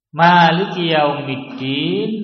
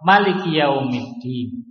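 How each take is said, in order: First: The vowel after the m is long. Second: The vowel after the m is short. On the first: "mimnya panjang" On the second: "mimnya pendek"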